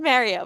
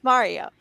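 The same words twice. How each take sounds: First: Mario said as "MARE-ee-oh"; Mario with an "air" first vowel; mistaken pronunciation. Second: Mario said as "MAH-ree-oh"; Mario with a broad "ah" first vowel; corrected pronunciation. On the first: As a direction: say Mario like "Mary-oh". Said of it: "'cause I said Mario". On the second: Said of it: "but it's Mario". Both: Shown as a demonstration.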